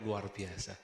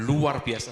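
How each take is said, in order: First: It is said flatly, without energy. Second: It is said loudly, with high energy.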